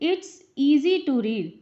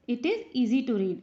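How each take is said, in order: First: It is shortened to one syllable, 'it's'. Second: It is said as two separate words, 'it is'. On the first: It is said in a hurry. "जल्दी जल्दी में कभी कभी इट्स बोल देते हैं" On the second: It is the usual careful reading. "वैसे इसको इट इज, इट इज ही पढ़ा जाता है"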